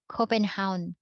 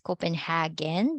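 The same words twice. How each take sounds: First: Copenhagen as Copen-HOWN, no g; native Danish pronunciation. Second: Copenhagen with a hard g, HAG-en; English pronunciation. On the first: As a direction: end Copenhagen on one syllable, hown. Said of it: "they pronounce this as". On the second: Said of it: "we can pronounce that in English as". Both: Shown as a demonstration.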